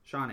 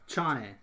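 First: The name begins with a soft consonant. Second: The name begins with a hard consonant. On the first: The speaker calls it wrong. "Why do I keep saying that wrong?" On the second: The speaker calls it right. "It's a hard ch"

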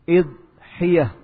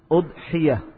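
First: The word begins with an 'i' vowel. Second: The word begins with a 'u' vowel. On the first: "boleh juga dengan mengkasrah huruf hamzahnya" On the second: "dengan mendhammah huruf hamzah"

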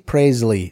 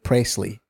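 First: The middle consonant sounds like a Z. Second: The middle consonant sounds like an S. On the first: "I say Presley, so it sounds like a Z in there" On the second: "other people like Presley because it's an S"

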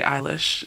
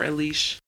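First: The first syllable sounds like 'eye'. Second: The first syllable sounds like 'eh'. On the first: "I like to say Eilish" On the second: "instead of Elish"

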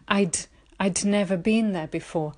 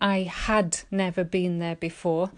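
First: The word 'had' is contracted to 'I'd'. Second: The word 'had' is said in full. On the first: "you'd make a contraction" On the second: "instead of saying"

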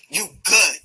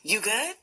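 First: It sounds supportive, offering help and backup. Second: It sounds warm and concerned, like a friendly check-in. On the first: Offering support to the other person. "I got you" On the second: Asking how the other person is doing. "How are you?"

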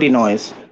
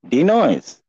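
First: Background noise is heard without noise reduction. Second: Background noise is reduced by noise suppression. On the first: "No denoise"

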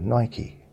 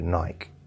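First: The brand name is said the American way. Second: The brand name is said the British way. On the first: "in America they call it Nike" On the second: "I was brought up to call it Nike"

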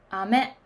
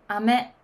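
The two takes are said the same way.

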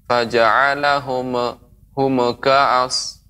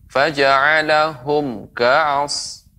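First: The m sound bounces before the k. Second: The m sound is said cleanly before the k. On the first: The speaker calls it wrong. "Jangan sampai mim ini mematul" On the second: The speaker calls it right. "dibaca jelas"

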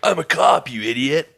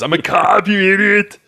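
First: It is said in a plain, ordinary accent. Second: It is said in an Austrian-style accent. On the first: "but not in an Arnold accent" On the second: "But my first thought was"

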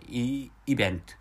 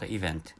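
First: The middle consonant sounds like a b. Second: The middle consonant sounds like a v. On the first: The speaker calls it wrong. "my language doesn't distinguish the pronunciations of B and V, so which is why, so you know, I accidentally pronounced event" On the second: The speaker calls it right. "event is the correct pronunciation for the English word event"

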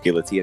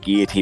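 First: The word has the usual English pronunciation. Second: The word has a fancier, non-English pronunciation. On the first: It is how everyone says it. "that's like the English pronunciation" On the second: The speaker is showing off. "that really pretentious guy that says guillotine"

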